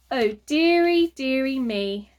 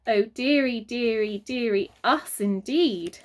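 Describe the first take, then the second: First: Mild dismay. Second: Lower sighing dismay. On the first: Mother frets as the trolley zooms off, mildly dismayed. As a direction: say it like a flustered lady. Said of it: "remarked Mother". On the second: Father echoes Mother's worry with a weary sigh. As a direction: echo her with a sigh. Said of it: "added Father". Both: A narrator's reading.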